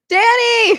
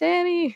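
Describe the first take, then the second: First: The name is shouted loudly. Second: The name is said quietly, not yelled.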